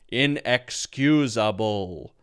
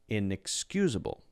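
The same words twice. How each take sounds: First: It is said in a flat, mechanical voice. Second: It is said in a natural, flowing voice.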